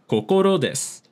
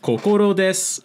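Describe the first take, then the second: First: The pitch drops low on desu. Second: The pitch stays high on desu. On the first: The speaker calls it right. "the next word has to be low" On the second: The speaker calls it wrong. "with the des high"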